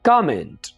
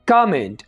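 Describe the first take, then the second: First: The first syllable is drawn out. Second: The first syllable is drawn out.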